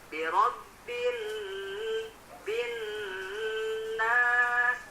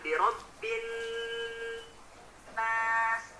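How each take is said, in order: First: It is recited with a melodic, swinging rhythm. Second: It is recited flat, without any melodic swing.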